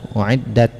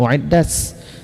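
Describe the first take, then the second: First: The word ends with a breathy t sound. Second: The word ends with a hissing s sound. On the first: The speaker calls it right. "Yang benar" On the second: The speaker calls it wrong. "jangan menjadi safir, jangan"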